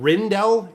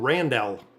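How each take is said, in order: First: The first vowel sounds like 'i'. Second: The first vowel sounds like 'a'. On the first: The speaker calls it wrong. "So an A versus an I" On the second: The speaker calls it right. "R A N, Ran, Ran, Randell. That's how I pronounce it"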